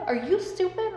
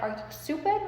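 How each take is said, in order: First: Higher, louder repeat; louder incredulous. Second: A hint of shocked mom, high; incredulous mom. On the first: Retold or imitated. Mom repeating herself, more exasperated. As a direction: push it harder the second time. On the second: Mom reacting to the offer, incredulous. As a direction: ask it in disbelief. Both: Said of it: "my mom's like".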